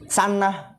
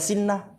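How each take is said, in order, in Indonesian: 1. Vokal pertama adalah a. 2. Vokal pertama adalah i. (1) "benar bukan?" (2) "Bisa aja antum baca sinnah"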